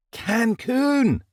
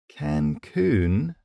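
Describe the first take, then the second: First: High, thrilled cry; excited exclamation. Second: Questioning, unsure echo; uncertain. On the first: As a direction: shake him with the word. Jackson shakes him. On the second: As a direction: repeat it doubtfully. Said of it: "I repeated uncertainly". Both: A narrator's reading.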